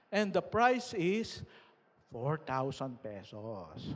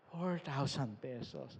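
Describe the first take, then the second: First: Lightly voiced host, slow and drawn out; mock emcee announcement. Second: Said in the usual way. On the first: Retelling the party host announcing the prize, slow mock announcer. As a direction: stretch it out like revealing a prize.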